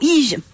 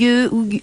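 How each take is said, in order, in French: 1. La première voyelle se prononce 'ee'. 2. La première voyelle se prononce 'oo'. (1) "ça se dit pas comme ça" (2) "Je crois que ça se prononce Hugue"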